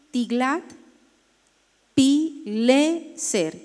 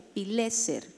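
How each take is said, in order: First: "Tiglat-Pileser" drawn out very slowly as Tiglat, pi, LE, ser; syllable-by-syllable dictation. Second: Said in the usual way. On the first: Shown as a demonstration. Teacher helping the class write "Tiglat-Pileser", slow syllables with stressed LE. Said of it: "con acento en la E". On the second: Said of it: "con tilde en la E".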